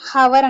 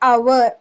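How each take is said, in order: First: The word starts with an audible h sound. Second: The word starts directly with a vowel sound. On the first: The speaker calls it wrong. "హవర్ అని అనం, H తో pronunciation చేయం" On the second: The speaker calls it right. "అవర్ అని pronunciation చేస్తాం"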